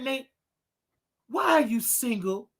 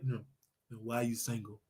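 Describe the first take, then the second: First: It is said in a normal voice. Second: It is said in a put-on deep voice.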